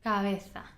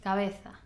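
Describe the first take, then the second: First: The b is relaxed, with lips left slightly open. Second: The b is relaxed, with lips left slightly open.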